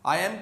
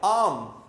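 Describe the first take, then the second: First: The two words are said separately. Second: The two words are merged into one syllable.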